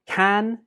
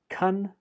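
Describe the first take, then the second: First: The word has a full, strong vowel. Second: The word has a weak uh vowel.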